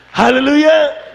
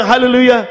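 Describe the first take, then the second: First: Very high, slow drawn-out shouted Hallelujah; mock shout. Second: High, loud, quick "Hallelujah" falling at the end; mock shout. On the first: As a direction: stretch "Hallelujah" out high and loud like a panicked mother. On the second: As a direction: snap out "Hallelujah" in a high cry. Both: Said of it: "Nung sumigaw yung nanay niya".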